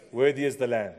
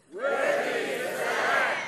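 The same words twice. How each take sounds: First: Said in the usual way. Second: Slow, high, full-voiced shout of praise; loud shout. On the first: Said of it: "That's not what heaven's gonna be like". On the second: Shown as a demonstration. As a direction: shout it out like heaven's choir. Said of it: "let's say it in a loud voice".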